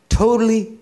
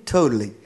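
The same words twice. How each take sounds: First: "totally" pitched way up and louder; emphatic, soaring "totally"; stress on totally. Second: Said in the usual way. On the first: Real, not acted. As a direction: hit "totally" high and hard. Emphatic repetition of father's devotion.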